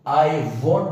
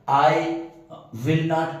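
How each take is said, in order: First: Will not is contracted into one syllable. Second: Will not is said as two full words. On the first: "short form के साथ पढ़ते हैं, वो होता है वॉन्ट" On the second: "विल नॉट भी full form है"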